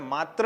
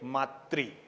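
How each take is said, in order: First: The word ends with a 'tra' sound. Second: The word ends with a 'tri' sound. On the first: The speaker calls it wrong. "इसलिए हमें मात्र नहीं बोलना है।" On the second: The speaker calls it right. "क्या बोलना चाहिए?"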